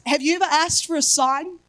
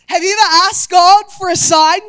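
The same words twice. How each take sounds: First: Said in the usual way. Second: Loud preacher's question; louder, pressing the congregation; loud preaching. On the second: Acted. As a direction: call it out to the whole room. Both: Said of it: "repeated question to congregation".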